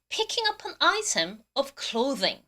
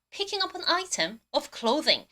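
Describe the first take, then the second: First: Very slow, careful English; slow model reading. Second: Very slow, careful English repeat; slow model reading again. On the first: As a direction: spell it out slowly for the class. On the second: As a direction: read it slowly once more. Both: Shown as a demonstration. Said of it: "발음 한 번 더".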